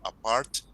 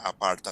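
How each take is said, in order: First: It ends cleanly on the t sound. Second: An extra vowel sound follows the final t. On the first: The speaker calls it right. "sino apart" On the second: The speaker calls it wrong. "va a tratar que no te salga aparta"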